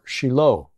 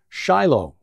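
First: The name is pronounced the Hebrew way. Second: The name is pronounced the English way.

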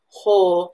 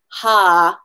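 First: The vowel is a rounded oh sound. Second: The vowel is an open ah sound. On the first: The speaker calls it right. "We need to round out that O" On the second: The speaker calls it wrong. "as opposed to ha, like us English speakers saying ah as our long O"

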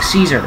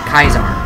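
First: The name begins with an S sound. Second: The name begins with a K sound. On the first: The person saying it hates him. "If someone hates him, they pronounce his name like Caesar" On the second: The person saying it likes him. "But if someone likes him, they pronounce it like Kaiser"

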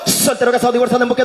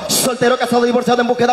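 First: The list is spoken at a fast pace. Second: The list is spoken at a slower pace.

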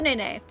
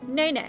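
First: The stress falls on the second Nay. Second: The stress falls on the first Nay. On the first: The speaker calls it wrong. "I believe it's the Nay Nay" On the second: The speaker calls it right. "There you go"

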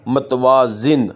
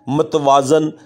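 First: The last syllable has an 'i' vowel. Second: The last syllable has an 'a' vowel. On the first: The speaker calls it right. "दुरुस्त लफ्ज़ है" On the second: The speaker calls it wrong. "ये गलत लफ्ज़ है"

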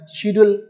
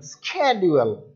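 First: It is said in a non-American accent. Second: It is said in an American accent. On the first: "we tell schedule" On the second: "American will tell schedule"

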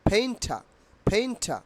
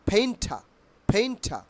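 Both takes have the same delivery.

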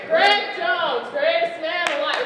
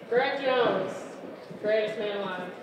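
First: It is announced with lively enthusiasm. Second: It is announced flatly, without excitement.

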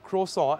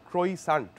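First: The word is said with a French-style pronunciation. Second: The word is sounded out letter by letter. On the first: "why is the French bread croissant called croissant" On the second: "and not croissant? Because that's how it's spelled"

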